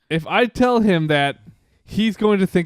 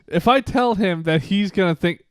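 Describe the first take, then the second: First: There is a pause after that. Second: It runs on with no pause after that.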